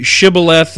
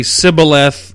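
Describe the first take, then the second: First: "shibboleth" begun with a clear SH sound; their pronunciation. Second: "sibboleth" begun with an S sound; our differing pronunciation. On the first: Preacher contrasting what they say with us, SH pronunciation. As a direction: stress the opening sh of "shibboleth". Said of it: "they say shibboleth". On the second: Preacher contrasting what we say with them, S pronunciation. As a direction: say "sibboleth" with s replacing the sh. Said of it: "and we say sibboleth". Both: Shown as a demonstration.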